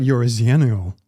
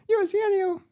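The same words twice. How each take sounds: First: Said in the usual way. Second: Exaggerated squeaky imitation of her; over-the-top high mimicry; mock high voice. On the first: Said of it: "She didn't say it like that". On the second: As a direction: pitch it way up, mocking. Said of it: "She doesn't talk like that either".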